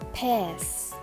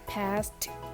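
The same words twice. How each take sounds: First: The final t sound is dropped. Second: The final t sound is pronounced. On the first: "The syllable t of final consonant will not pronounce" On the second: "In American Standard, we say"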